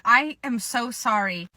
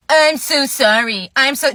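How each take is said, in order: First: Said in the usual way. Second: Slow, loud parody of an apology; mocking mimicry. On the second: Customer mimics the employee's apology.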